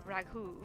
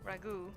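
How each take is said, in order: No difference in how they are said.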